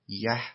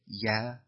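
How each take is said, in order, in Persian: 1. این کلمه به مصوت eh کاهش یافته است. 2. این کلمه به مصوت ah کاهش یافته است. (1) "یکی یه" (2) "یکی یا"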